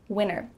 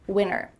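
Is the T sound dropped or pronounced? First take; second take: dropped; dropped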